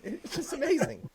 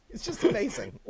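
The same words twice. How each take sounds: First: Laughing through the words; can't stop laughing as you say it. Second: Amused; laughing. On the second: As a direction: still chuckling on the repeat. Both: Real, not acted.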